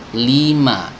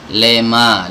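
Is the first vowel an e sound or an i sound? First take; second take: i sound; e sound. First: The first vowel is a full, clear i. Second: The first vowel sounds like a short e. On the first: The speaker calls it right. "li kasrohnya itu sempurna" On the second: The speaker calls it wrong. "Banyak yang membaca itu lema"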